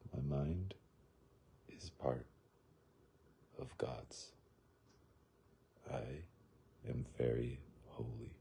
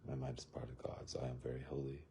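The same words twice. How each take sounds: First: It is said slowly. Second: It is said at a normal speed.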